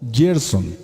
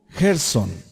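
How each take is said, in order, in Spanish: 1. El nombre se pronuncia con pronunciación inglesa. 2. El nombre se pronuncia con pronunciación española.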